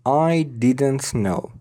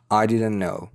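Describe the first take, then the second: First: "I didn't know" slowly, word by word; careful pronunciation. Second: "didn't know" linked as "diden-no"; faster, reduced. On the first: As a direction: sound the t in "didn't", separate from "know". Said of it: "این تلفظ شمردش هست". («I didn't know» شمرده، با تی کامل) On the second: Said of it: "سریعتر تلفظش کنیم". («didn't know» سریعتر و بدون تی) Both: Shown as a demonstration.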